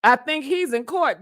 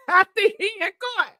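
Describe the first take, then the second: First: Said in the usual way. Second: High, fast, squealed through a laugh. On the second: Real, not acted. Cracking up over T D Jakes in court, laughing. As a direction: crack up while saying it. Repeats own joke while laughing.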